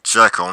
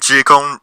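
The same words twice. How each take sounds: First: The name gets a non-Scottish pronunciation. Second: The name gets its Scottish pronunciation. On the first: The speaker calls it wrong. "those who go around saying Jekyll instead of" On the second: The speaker calls it right. "it's the correct Scottish pronunciation"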